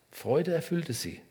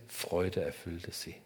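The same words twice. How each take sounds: First: Joyful take. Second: Quiet take. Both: Shown as a demonstration.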